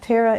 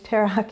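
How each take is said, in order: First: The name is said with its English pronunciation. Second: The name is said with its Hebrew pronunciation. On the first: "in English" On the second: "in Hebrew"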